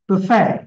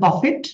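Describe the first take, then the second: First: The word ends in a vowel, without t. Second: The word ends with a clear t sound. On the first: The speaker calls it right. "But it will be বুফে" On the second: The speaker calls it wrong. "এটা বাংলাদেশে বলে বাফেট"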